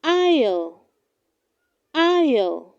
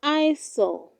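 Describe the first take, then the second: First: Aisle said as "EYE-ul"; correct pronunciation. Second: Eyesore, aisle misread as "eye-sul"; wrong pronunciation. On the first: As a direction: silent s in aisle, like I'll. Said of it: "It is pronounced". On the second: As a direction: sound an s, as heard in eyesore. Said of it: "Do not say". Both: Shown as a demonstration.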